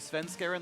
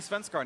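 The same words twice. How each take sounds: First: The name uses the plain, everyday pronunciation. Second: The name uses a more formal, native-style pronunciation. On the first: This is how everyone else says it. The speaker calls it right. "I will say Svenskaren like everyone else" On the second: This is the high-road version. The speaker calls it wrong. "there's high road pronunciation, and I'm not going to say Svenskaren anymore"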